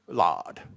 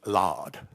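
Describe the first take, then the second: First: The vowel is open, close to 'lard'. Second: The vowel is open, close to 'lard'.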